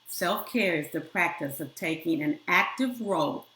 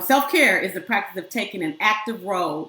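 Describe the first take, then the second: First: It is spoken at a noticeably slower pace. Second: It is spoken at a normal, quicker pace.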